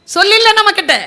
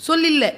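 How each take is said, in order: First: சொல்லில்ல repeated much higher and louder; emphatic repeat. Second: Said in the usual way. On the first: Real, not acted. Speaker to audience, stressing சொல்லில்ல loudly and high. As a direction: hammer home சொல்லில்ல.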